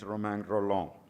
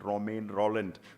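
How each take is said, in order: First: The name is said with French pronunciation. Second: The name is said with English pronunciation. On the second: "anglicized pronunciation"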